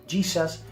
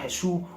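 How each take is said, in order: First: The name is pronounced the English way. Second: The name is pronounced the Spanish way. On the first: An English speaker says the name. "un inglés diga Jesus" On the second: A Spanish speaker says the name. "yo diga Jesús"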